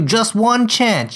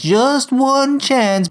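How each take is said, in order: First: Firm warning with weight on "one chance"; stern warning. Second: "just one chance" stretched very slowly, higher; drawn-out warning. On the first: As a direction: give "just one chance" as a firm condition. Boss lays down final warning. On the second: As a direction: repeat it word by word, dragging out "one chance". Boss repeats warning for emphasis. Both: Acted.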